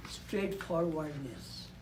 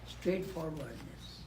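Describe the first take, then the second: No difference in how they are said.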